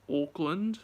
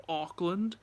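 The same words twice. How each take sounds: First: "Auckland" with a rounded "aw" first vowel; local pronunciation. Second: "Auckland" with a more open first vowel; own pronunciation. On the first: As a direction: say "Auckland" as locals do, like "awk-lund". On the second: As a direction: say "Auckland" the speaker's way, nearer "ahk-lund". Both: Shown as a demonstration. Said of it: "as you guys pronounce it".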